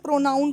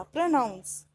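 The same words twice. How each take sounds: First: "प्रोनाउन" ending in n, no final s; mispronounced "प्रोनाउन", stopping on the n; wrong pronunciation. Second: "प्रोनाउंस" ending in a clear s; correct pronunciation. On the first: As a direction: say "प्रोनाउन" with the final s sound dropped. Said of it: "इसको भी गलत बोलते हैं". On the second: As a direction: say "प्रोनाउंस" with n then s at the end. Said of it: "प्रोनाउन नहीं होता". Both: Shown as a demonstration.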